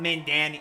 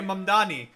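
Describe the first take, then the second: First: The name has an n sound before 'dani'. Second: The name has an m sound before 'dani'. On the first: The speaker calls it wrong. "Not Mandani" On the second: The speaker calls it right. "that's how you say Mamdani"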